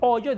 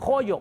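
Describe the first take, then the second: First: The first sound is silent, with no consonant. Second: The first sound is a harsh j sound. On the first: "en vez de decir hoyo" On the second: "la H la usan como J"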